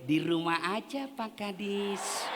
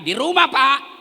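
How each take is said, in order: First: It is said in a soft, lilting voice. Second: It is said in a firm, curt voice.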